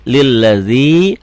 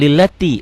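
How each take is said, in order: First: The middle consonant is a 'dz' sound. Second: The middle consonant is a 't' sound. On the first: The speaker calls it right. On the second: The speaker calls it wrong.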